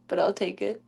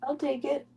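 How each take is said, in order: First: Said in the usual way. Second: Higher, softer repeat. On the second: Acted.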